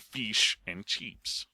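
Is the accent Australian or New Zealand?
Australian. The i vowel is long and clear.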